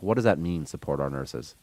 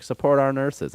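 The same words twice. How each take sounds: First: Incredulous. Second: Mock slogan. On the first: Retold or imitated. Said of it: "I'm like". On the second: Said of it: "They were like".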